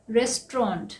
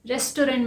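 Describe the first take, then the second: First: "रेस्टोरेंट" as RES-tront, two beats; correct pronunciation. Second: "रेस्टोरेंट" as res-to-RENT; three beats in "रेस्टोरेंट", ending in "rent"; common mispronunciation. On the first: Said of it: "इसका सही pronunciation है". ("रेस्टोरेंट" का सही उच्चारण, रेस-ट्रॉन्ट) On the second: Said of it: "लेकिन हम इसे क्या बोलते हैं?". ("रेस्टोरेंट" का आम गलत उच्चारण, रेस-टो-रेंट) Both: Shown as a demonstration.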